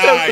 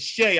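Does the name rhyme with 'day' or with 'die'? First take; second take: die; day. First: The name rhymes with 'die'. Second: The name rhymes with 'day'. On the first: The speaker calls it wrong. "He's like shy" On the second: The speaker calls it right. "I'm like T G K is Shay"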